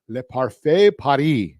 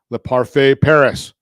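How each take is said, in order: First: It is said with a French accent. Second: It is said with an American accent.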